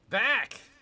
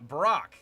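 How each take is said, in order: First: No R sound follows the first consonant. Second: An R sound follows the first consonant. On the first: The speaker calls it right. "B A A K" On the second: The speaker calls it wrong. "I mispronounced it. I thought it was an R"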